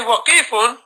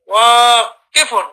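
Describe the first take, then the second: First: The vowel after the w is short. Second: The vowel after the w is long. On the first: The speaker calls it wrong. "don't say waqifun" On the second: The speaker calls it right. "because you have an alif after the waw, so you say wa"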